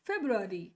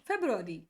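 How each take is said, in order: No difference in how they are said.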